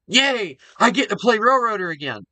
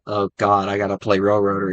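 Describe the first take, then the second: First: It sounds happy and excited. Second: It sounds reluctant and weary.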